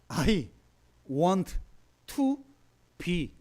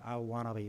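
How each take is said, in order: First: Korean-accented English, with each word said separately. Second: Smooth native-like English, with "want to" run together. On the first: "우리 한국식으로 합시다" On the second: "발음을 좀 멋있게 제가 I wanna be 막 이렇게 해야 되는데"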